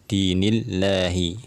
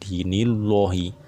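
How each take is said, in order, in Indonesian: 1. Bunyi 'l' itu tipis dan ringan. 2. Bunyi 'l' itu tebal dan berat. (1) "dia harus dibaca dengan tipis" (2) "Itu adalah cara membaca yang salah"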